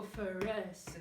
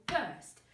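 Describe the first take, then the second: First: "first" chopped into several beats with added vowels; slow, wrongly split "first"; too many beats. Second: Said in the usual way. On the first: Shown as a demonstration. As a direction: say "first" as fuh-ur-suh-tuh. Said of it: "You don't go first". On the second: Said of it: "You just go first".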